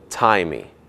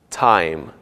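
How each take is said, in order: First: An extra 'ee' vowel follows the final consonant. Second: The word ends on its final consonant sound. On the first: The speaker calls it wrong. "e não" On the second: The speaker calls it right. "Não se pronuncia o som do I no final"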